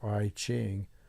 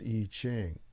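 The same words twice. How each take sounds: First: The first word sounds like the letter I. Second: The first word does not sound like the letter I. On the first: The speaker calls it wrong. "It's not really I Ching, although it's uh, spelled with an I" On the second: The speaker calls it right. "The correct pronunciation is I Ching"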